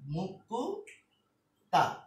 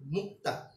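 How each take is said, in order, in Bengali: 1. k ও t-এর মাঝে একটি অতিরিক্ত u স্বরধ্বনি বসে। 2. k ও t ধ্বনি কোনো স্বরধ্বনি ছাড়াই যুক্ত হয়। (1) "একটা স্বরধ্বনি যোগ করে ফেললাম" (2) "কয়ের সাথে কি কোনো স্বরধ্বনি আছে? না।"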